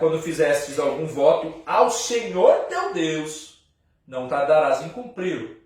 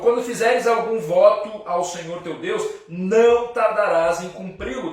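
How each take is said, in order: First: The word Senhor is strongly stressed. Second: The word Senhor carries no special stress.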